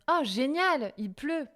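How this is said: The voice rises at the end. It is a genuinely positive exclamation. "la ma voix monte à la fin"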